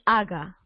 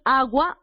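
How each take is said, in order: First: No u sound is heard after the g. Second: A u sound is heard after the g. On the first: The speaker calls it wrong. "o tú dices haga" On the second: The speaker calls it right. "tú dices agua"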